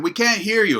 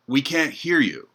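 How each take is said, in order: First: Much higher, insistent yell; louder shout. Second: Called out from the crowd, only a bit raised; a workers' shout, half-hearted; mock shout. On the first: Retold or imitated. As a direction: shout it back, clearly higher. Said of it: "and they said". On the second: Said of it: "someone shouted out".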